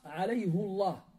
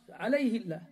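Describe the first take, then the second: First: The h is followed by a u vowel. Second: The h is followed by an i vowel. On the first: "Il y a une dhamma sur le ha. En hafs" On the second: "Chez Warsh"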